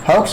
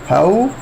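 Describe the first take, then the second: First: The word ends with a ks sound. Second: The word ends without a ks sound. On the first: The speaker calls it wrong. "हाउक्स नहीं" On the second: The speaker calls it right. "एक्स इसमें silent है"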